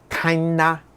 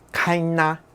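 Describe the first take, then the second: First: It is nasal and the g is silent. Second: The same.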